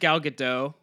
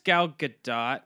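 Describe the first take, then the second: First: The final T of the surname is silent. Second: The final T of the surname is pronounced. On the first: "Everybody says Gal Gadot" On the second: "you don't agree with silent T's?"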